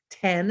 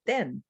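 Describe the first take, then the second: First: TEN with a puffed English t; English pronunciation. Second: TEN with an unpuffed, dental Spanish t; Spanish pronunciation. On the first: Teacher contrasts English with Spanish, English pronunciation. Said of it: "Like here's English". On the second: Teacher contrasts Spanish with English, Spanish pronunciation. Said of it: "in Spanish I have ten". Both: Shown as a demonstration.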